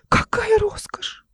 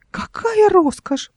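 First: Very high, slow breathy gasp of awe; gasping whisper. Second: High slow whispered squeak; squeaky whisper. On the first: Uncle peering into the chest, gasping in awe. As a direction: gasp it out in wonder. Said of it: "ахнул". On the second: Uncle alone at the box, squeaking. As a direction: squeak in awe. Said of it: "пропищал он". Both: A narrator's reading.

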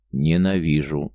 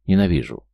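First: Slow, every syllable of Ненавижу spelled out deliberately; distinct repeat. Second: A louder, angry cry of hate; hateful outburst. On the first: Man repeats his hatred to his friend, slow and distinct. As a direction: lay out Ненавижу slowly, syllable by syllable. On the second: Man screams his hatred at his old friend, angry. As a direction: spit out the hatred. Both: A narrator's reading. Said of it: "отчётливо повторил Завьялов".

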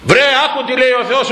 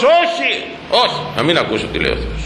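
First: High, insistent acted plea; exasperated urging. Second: High first no, then dropping into a quick refusal; mock stubborn refusal. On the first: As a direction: urge a stubborn listener to pay heed. Acted plea to a stubborn listener. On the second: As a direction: play someone refusing to listen. Acted stubborn refusal to listen.

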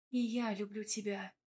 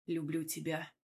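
First: Soft, lightly amused reply; through laughter. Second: Low, hushed, husky confession; hoarse husband. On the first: Wife returning her husband's confession, softly amused. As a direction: answer gently with a hint of laughter. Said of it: "проговорила я в ответ сквозь смех". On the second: Husband confessing love to his wife, low and hoarse. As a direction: murmur it low, like a husky-voiced man. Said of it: "хрипло проговорил муж". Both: A narrator's reading.

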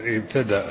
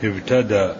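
First: "ابتدأ" ending in a sounded glottal stop; with hamza. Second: "ابتدأ" said ibtada, final glottal stop dropped; without hamza. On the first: Teacher repeating the vocalised reading, with hamza. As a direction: say "ابتدأ" with the final hamza pronounced. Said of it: "ضبطناه بالهمز". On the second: Teacher explaining the variant reading, without hamza. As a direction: end "ابتدأ" on a plain open a. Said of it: "أو بدا بدون همز". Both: Shown as a demonstration.

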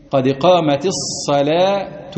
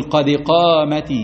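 First: قامت الصلاة with short i, slowly; slow correct demo. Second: قامت with short kasra, no ya; slow careful قامت; slow correct demo. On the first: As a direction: say it slowly and precisely. (ببطء وبكسرة قصيرة) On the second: (ببطء بلا ياء) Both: Shown as a demonstration. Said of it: "بس ما تجيبش ياء".

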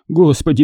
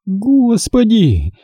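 First: Господи as a higher bewildered sigh; lamenting father. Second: Господи roared high and drawn out; roaring. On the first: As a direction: breathe Господи helplessly. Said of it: "причитал сердобольный отец". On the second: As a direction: bellow Господи in fury. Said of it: "взревела дочь". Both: Acted.

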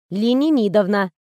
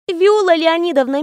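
First: Ленинидовна said plainly as Le-ni-NI-dovna; patronymic corrected. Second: Леонидовна said as Leo-NI-dovna, the common form; eager young assistant says Леонидовна; misnamed patronymic. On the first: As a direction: writer corrects the girl, stressing Ленинидовна. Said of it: "Моё отчество Ленинидовна". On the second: The girl gets the patronymic wrong, saying Леонидовна. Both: Acted.

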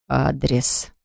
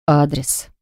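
First: Low, soft, hoarse single word. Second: Growled. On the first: Husband demanding the address again, low and hoarse. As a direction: rasp the word out quietly. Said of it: "повторил хриплым голосом". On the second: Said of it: "прорычал одно лишь слово". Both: A narrator's reading.

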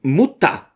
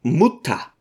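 First: Mild louder call. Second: A curt, irritated Mutter; angry interruption. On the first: Son calling over his mother, slightly louder. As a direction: Mutter called out a little harder. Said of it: "rief Varnava noch lauter". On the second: Son cutting off his fussing mother, angry. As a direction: cut his mother off in anger. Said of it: "unterbrach sie der Lehrer zornig". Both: A narrator's reading.

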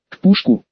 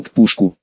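First: Puzzled question, pitched higher; surprised. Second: Said in the usual way. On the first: A narrator's reading. Симус repeats what the gamekeeper said, surprised. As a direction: echo it back in surprise, voice lifting. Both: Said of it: "удивился Симус".

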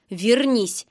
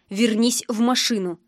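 First: A mild hint of menace on вернись; understated threat; threatening. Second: Said in the usual way. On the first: A narrator's reading. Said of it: "с угрозой в голосе". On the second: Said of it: "повторил зверь".

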